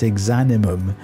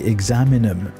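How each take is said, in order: First: The word ends with the sounds 'ni-mum'. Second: The word ends with the sounds 'mi-num'. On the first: The speaker calls it right. "it's Exanimum" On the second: The speaker calls it wrong. "I keep wanting to say Examinum, but it's not"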